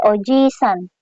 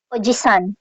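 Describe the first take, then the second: First: The i vowel is held long. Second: The i vowel is kept short. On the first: It means grandfather. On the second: It means uncle.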